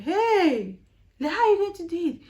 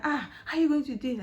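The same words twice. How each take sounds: First: High, fast, loud alarmed cry; surprised colleague. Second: Quicker, lighter repeat of the alarm; surprised colleague. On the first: Colleague hears of her Canadian interview, shrieks in surprise. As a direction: gasp out the shock of a colleague hearing the news. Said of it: "I was like". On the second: Colleague repeats his question while helping her, milder surprise. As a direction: ask again with milder surprise. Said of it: "he was helping me". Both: Retold or imitated.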